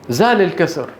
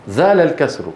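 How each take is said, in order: No difference in how they are said.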